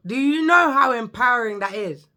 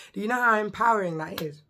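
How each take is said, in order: First: Louder, emphatic. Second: Said in the usual way. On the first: Real, not acted. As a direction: push it louder and higher.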